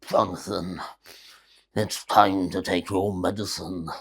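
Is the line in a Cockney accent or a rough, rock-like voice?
rock-like. It is said in a hard, rock-like voice. "anything like a voice like a rock or something"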